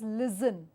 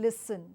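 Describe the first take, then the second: First: The middle consonant is a z sound. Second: The middle consonant is an s sound. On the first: The speaker calls it wrong. "a common mistake in Andhra Pradesh" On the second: The speaker calls it right. "the right technique; listen has a s sound"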